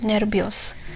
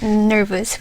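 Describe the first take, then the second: First: The word is said with a Filipino accent. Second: The word is said in standard English. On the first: "we pronounce it nervios" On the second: "We don't pronounce it nervous"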